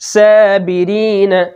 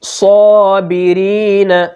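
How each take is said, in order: First: The first s sound is thin and light. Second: The first s sound is thick and heavy. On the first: The speaker calls it wrong. "अगर हमने सौद को बारीक पढ़ दिया ... तो ये गलत हो जाएगा" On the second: The speaker calls it right. "हमने सौद को पुर पढ़ा है, मोटा पढ़ा है"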